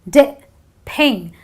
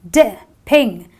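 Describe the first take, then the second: No difference in how they are said.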